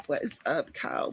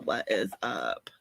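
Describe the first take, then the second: First: Said in the usual way. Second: What is up? dropped much lower and slowed; mock deep voice. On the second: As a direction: play it as a big low slow dude greeting.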